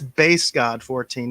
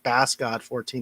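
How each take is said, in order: First: The first word sounds like bass in bass guitar. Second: The first word sounds like bass the fish. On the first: The speaker calls it right. "That's [name], like a bass guitar" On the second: The speaker calls it wrong.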